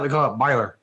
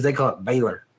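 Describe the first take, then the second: First: Baylor with "buy" as first syllable; southern pronunciation. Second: Baylor with a clear "bay" first syllable; Yankee pronunciation. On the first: Teacher showing how it's said down south, Baylor as BUY-ler. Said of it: "And down south". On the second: Teacher showing how Yankees say it, Baylor as BAY-ler. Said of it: "And the Yankees". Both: Shown as a demonstration.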